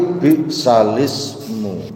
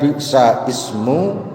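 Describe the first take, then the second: First: The l runs straight into ismu without a break. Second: There is no l sound before ismu. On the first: The speaker calls it right. "tapi bi'salismu" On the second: The speaker calls it wrong. "Caranya membaca yang benar bukan bi'sa ismu"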